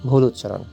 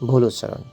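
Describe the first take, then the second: No difference in how they are said.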